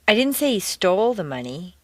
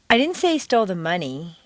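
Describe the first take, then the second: First: The stress is on the word stole. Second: The stress is on the word money.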